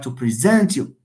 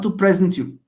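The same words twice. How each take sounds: First: The stress is on the second syllable. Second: The stress is on the first syllable. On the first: The speaker calls it right. "I would like to present you" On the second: The speaker calls it wrong. "not to present you"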